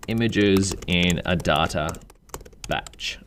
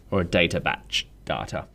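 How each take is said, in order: First: Said in the usual way. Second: "data" said with an R sound added after the final vowel, like "datar", as Australians do; "a data batch data" with an R slipped onto the end of "data"; Australian linking R. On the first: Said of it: "We Australians". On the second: Shown as a demonstration. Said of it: "like to throw R's onto the end of vowels".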